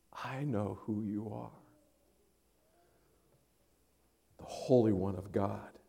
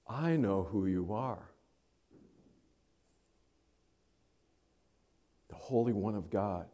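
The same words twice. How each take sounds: First: Much softer, low, intimate; personal, hushed. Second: Softer, lower, deliberate words; hushed recognition. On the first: Demon naming Jesus softly and personally. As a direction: drop to a near hush, personal. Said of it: "Now it's personal". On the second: Demon naming Jesus in a soft, low voice. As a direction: say it quietly, with awe. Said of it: "Something's changed here". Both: Acted.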